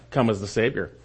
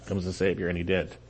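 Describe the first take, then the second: First: Said in the usual way. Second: "Come as the Savior" repeated lower and much softer; hushed, reflective repeat; soft echo. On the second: Shown as a demonstration. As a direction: let the words sink in quietly. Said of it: "repeated softly".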